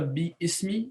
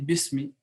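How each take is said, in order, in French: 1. La voyelle de ism se prononce séparément après bi. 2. La voyelle tombe et bi se joint directement à smi. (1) "on ne dit pas bi ismi" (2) "mais on dit bismi, parce que le alif ... disparaît"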